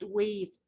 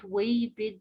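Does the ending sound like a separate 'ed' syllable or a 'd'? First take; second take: d sound; ed syllable. First: The ending is a short 'd' sound. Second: The ending is an extra 'ed' syllable. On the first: The speaker calls it right. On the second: The speaker calls it wrong.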